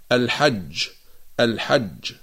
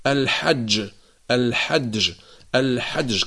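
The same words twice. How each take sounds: First: الحج with a clean ج and no d sound before it; pure jim. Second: الحج said as al-ḥadj with a d before the ج; jim with added dal. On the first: Teacher modelling the correct reading for students. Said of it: "ويجب أن نقرأها على هذا النحو". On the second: Teacher imitating people's wrong pronunciation. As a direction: slip a dal in front of the ج in الحج. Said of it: "فيقولون مثلًا". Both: Shown as a demonstration.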